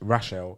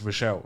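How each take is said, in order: First: The name begins with a 'Rash' sound. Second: The name begins with a 'Rosh' sound. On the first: The speaker calls it right. "you're meant to pronounce it as Rash, Rachel" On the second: The speaker calls it wrong. "but I always got Rochelle"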